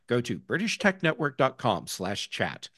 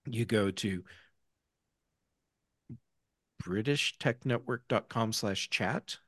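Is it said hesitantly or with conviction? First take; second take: with conviction; hesitantly. First: It is said firmly, with conviction. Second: It is said hesitantly, without conviction.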